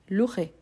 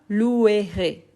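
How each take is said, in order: First: The E after 'lou' is silent. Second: The E after 'lou' is pronounced as a syllable. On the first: The speaker calls it right. "les E, je ne prononce pas" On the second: The speaker calls it wrong. "mais pas louerai"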